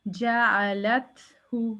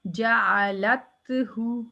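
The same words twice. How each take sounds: First: जाअलतहु slowly, with a breathy release after त; जाअलतहु with audible air on त; whispered त. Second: जाअलतहु with त cut dead, no breath; जाअलतहु clipped on त; wrong clipped take. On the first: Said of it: "लत में whisper है ही नहीं". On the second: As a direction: say जाअलतहु without releasing air. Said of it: "लत में whisper है ही नहीं अब". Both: Shown as a demonstration.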